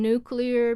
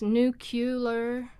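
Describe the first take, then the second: First: The sounds come in their usual order. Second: Two sounds near the end swap places.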